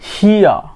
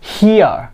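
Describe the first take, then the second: The two takes are said the same way.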